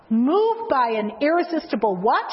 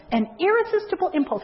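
First: Rising prompt to the crowd, irresistible lifted; teacher's question. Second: Irresistible hit hard and high, then falling to impulse; stress on irresistible. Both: Shown as a demonstration.

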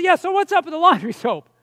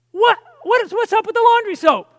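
First: Slightly raised, nagging query; insistent follow-up question. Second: High, loud, incredulous question; acted exasperation. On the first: Retold or imitated. Husband asking his wife once more about the soap, mildly insistent. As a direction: press the question with mild exasperation. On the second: Husband to wife and daughter about spilled soap, exasperated. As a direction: pitch it up in mock-indignant disbelief.

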